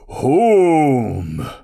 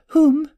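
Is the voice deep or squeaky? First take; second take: deep; squeaky. First: The voice is deep, low and booming. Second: The voice is tiny, high and squeaky. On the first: The speaker calls it right. "Treebeard's voice is deep and booming" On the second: The speaker calls it wrong. "a tiny squeaky voice just like a mouse"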